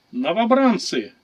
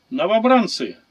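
First: Loud, slow barked order; barked command. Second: Loud, higher parade shout; shouted command. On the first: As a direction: bark it at the recruits. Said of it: "рявкнул Центурион". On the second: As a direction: call the recruits to attention. Centurion addresses recruits again. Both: A narrator's reading.

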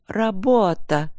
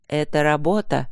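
First: Higher, very slow, indignant echo; angry cry. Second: Composed, matter-of-fact explanation; calm. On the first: Wife throws her husband's excuse back at him, angry. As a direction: throw the word back angrily, drawn out. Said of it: "крикнула жена зло". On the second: Husband explains himself to his suspicious wife, calm. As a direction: state it evenly, without heat. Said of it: "сказал он спокойно". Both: A narrator's reading.

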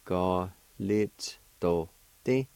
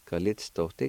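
First: Ga lit do ti said slowly with each syllable distinct; slow demo. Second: Said in the usual way. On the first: Shown as a demonstration. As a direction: spell out Ga lit do ti slowly for the class.

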